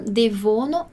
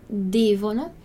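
First: "devono" wrongly stressed on VO, de-VO-no; wrong syllable stressed. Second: "devono" stressed on DE, DE-vo-no; stress on first syllable. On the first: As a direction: shift the beat in "devono" onto middle VO. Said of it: "Não devono". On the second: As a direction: punch DE in "devono", keep "-vono" light. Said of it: "a nossa sílaba forte é o de". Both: Shown as a demonstration.

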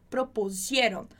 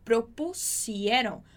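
First: Propusieron with a buzzing z sound, pro-pu-ZIE-ron; Z sound mistake. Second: Propusieron slowly, with a crisp unvoiced s, pro-pu-SIE-ron; clean s sound. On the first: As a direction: say Propusieron the wrong way, voicing the s into a z. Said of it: "não fazer esse sonzinho de Z do propusieron". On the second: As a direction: say Propusieron slowly, hissing a clear s. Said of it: "A gente tem o S, som de S". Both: Shown as a demonstration.

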